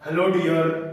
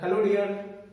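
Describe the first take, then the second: First: It is said louder than normal conversation. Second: It is said at normal conversational volume.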